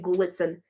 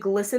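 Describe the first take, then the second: First: The middle has a ts sound. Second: The middle has a plain s sound. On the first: This is how the speaker always read the name. The speaker calls it wrong. "G L I T S E N. I say Glitzen" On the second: This is the accepted way to say the name. The speaker calls it right. "I don't say glisten"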